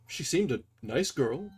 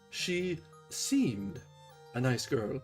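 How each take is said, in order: First: The stress is on the word nice. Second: The stress is on the word seemed.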